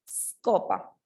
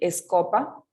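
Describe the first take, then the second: First: The word begins directly with the s sound. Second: An extra e vowel comes before the s. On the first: The speaker calls it right. "comenzamos desde la S" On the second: The speaker calls it wrong. "No me van a decir escopa"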